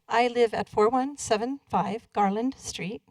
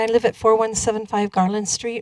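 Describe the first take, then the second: First: It is said slowly. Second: It is said quickly.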